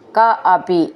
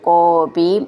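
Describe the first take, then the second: First: The two words are said separately. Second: The two words are merged into one.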